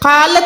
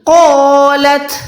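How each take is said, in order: First: The long vowel is light and thin. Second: The long vowel is heavy and full. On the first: The speaker calls it wrong. "कालत नहीं" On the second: The speaker calls it right. "इस अलिफ को भी मोटा अदा करना है"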